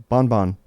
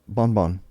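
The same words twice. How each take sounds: Both takes have the same delivery.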